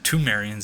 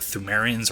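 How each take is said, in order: First: The word begins with a hard t sound. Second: The word begins with a soft th sound.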